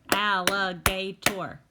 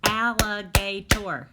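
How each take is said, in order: First: Alligator slow and louder, a falling clap on each syllable; syllable-clapped again. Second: Alligator slow and louder, every syllable spaced; syllable-clapped word. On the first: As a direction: beat out Al-li-ga-tor once more. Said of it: "That's a big one". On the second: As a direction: clap al-li-ga-tor beat by beat. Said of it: "We're gonna clap them". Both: Shown as a demonstration.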